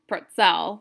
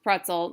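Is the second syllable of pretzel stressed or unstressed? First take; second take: stressed; unstressed. First: The second syllable carries the stress. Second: Neither syllable carries any stress. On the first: The speaker calls it wrong. "where they stress the second syllable to that two syllable word" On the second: The speaker calls it right. "Nothing is stressed"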